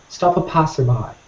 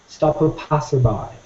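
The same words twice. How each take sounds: Both takes have the same delivery.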